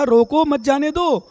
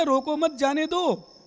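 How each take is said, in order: First: Louder "रोको", break, then "मत जाने दो"; pause after रोको. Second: "रोको मत" joined, break, then "जाने दो"; group "मत" with "रोको", releasing "जाने दो"; pause after मत. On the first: Monk insisting on what he said, break after "रोको". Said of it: "मैंने तो कहा". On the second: Monk showing how he was misheard, break after "मत". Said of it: "उसने सुन लिया". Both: Shown as a demonstration.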